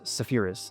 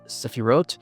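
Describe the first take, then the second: First: The word ends with an 'is' sound. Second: The word ends with an 'ot' sound. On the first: This is the speaker's original accent. "in my original accent, it's Sephiris" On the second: This is how some other people say it. "Some people call it Sephirot. Sometimes I do that"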